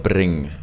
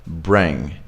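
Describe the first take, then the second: First: Trilled, foreign-sounding R in BRING; harsh R. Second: Gentle R in BRING, falling; soft American R. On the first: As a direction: BRING with a hard, rolled R. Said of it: "really harshly". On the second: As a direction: BRING with a smooth, untrilled R. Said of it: "We don't go like bring". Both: Shown as a demonstration.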